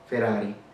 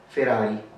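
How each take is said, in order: No difference in how they are said.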